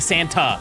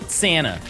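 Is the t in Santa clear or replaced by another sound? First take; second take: clear; replaced. First: The t in the middle is clearly pronounced. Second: The t is replaced by a d or n. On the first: "you will never catch me saying Santa" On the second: "I just replace it with a D. Or like a like an N"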